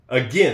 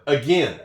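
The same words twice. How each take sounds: First: The second syllable sounds like 'gin'. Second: The same.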